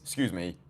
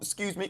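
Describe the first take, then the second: First: It is said calmly, with confidence. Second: It is said timidly, with hesitation. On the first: The speaker calls it right. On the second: The speaker calls it wrong.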